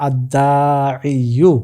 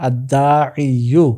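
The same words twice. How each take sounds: Both takes have the same delivery.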